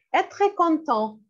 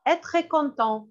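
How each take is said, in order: First: Slow, careful teacher model; slow model phrase. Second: Said in the usual way. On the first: Shown as a demonstration. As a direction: say it slowly for the class to repeat. (lentement, en détachant)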